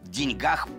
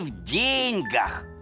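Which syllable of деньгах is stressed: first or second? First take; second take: second; first. First: The stress is on the second syllable. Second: The stress is on the first syllable. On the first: It is ordinary talk about money. "ударение переходит на «а»" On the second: It is the fixed proverb about happiness and money. "в пословице «не в деньгах счастье» ударение нужно ставить на «е»"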